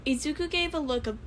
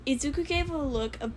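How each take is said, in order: Both takes have the same delivery.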